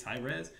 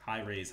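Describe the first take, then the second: First: "Rez" with the vowel of red; short-E pronunciation. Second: "Raze" said like rays; long-A pronunciation. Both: Shown as a demonstration. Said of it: "That's my accent".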